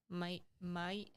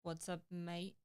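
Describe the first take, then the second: First: "Mate, mate" said as "mite, mite" in an Australian accent; trying an Australian accent. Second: Said in the usual way. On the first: Shown as a demonstration. Co-host tries saying "mate" in a light Australian accent. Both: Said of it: "How do you say that in, uh, Australian accent?".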